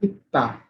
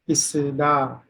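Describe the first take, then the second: First: The middle consonant is a t sound. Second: The middle consonant is an s sound. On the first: The speaker calls it right. "Double sa will also be pronounced as ta at the Pachim position" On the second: The speaker calls it wrong. "If you don't know the rule, how the pronunciation will be isda"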